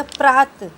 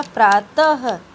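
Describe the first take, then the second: First: प्रात said without the final ह; wrong pronunciation. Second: प्रातः louder and slower, with the final ह clear; correct pronunciation. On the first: Teacher showing the wrong way to say the word. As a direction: clip प्रात off, no ह at the end. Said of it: "तो गलत हो जाएगा". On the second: Teacher correcting pupils, saying the word right. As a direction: finish प्रातः with an audible ह. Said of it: "ये होगा प्रातः". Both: Shown as a demonstration.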